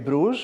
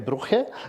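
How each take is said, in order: First: The name is pronounced in its English form. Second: The name is pronounced in its Dutch form. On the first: The speaker calls it wrong. "we don't say Bruges" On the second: The speaker calls it right. "we say Brugge in Dutch"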